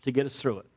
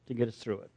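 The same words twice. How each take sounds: First: Said in the usual way. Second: Softer repeat, let it sink in; hushed, reflective repeat; quiet echo. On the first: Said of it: "and God used Walter". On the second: Shown as a demonstration. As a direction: drop the voice on the echo.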